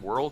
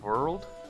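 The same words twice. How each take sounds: First: It is said in an ordinary accent. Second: It is said in a put-on vampire accent. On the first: "instead of saying world" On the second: "he has to be a vampire, because ... he said world"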